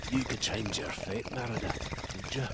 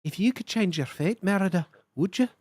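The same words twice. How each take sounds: First: Low, soft Scottish brogue, much lower and softer than her own; lower Scottish take. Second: Light Scottish lilt, close to her own voice; a first, gentle try at a Scottish lass; Scottish lass brogue. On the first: Streamer retrying the Merida line, low and soft Scottish brogue. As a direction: drop it down and murmur it in a Scottish brogue. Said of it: "Which kind of Scottish lass?". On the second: Streamer's first try at the Scottish lass for chat, light brogue. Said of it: "in the brogue of a young Scottish lass". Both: Acted.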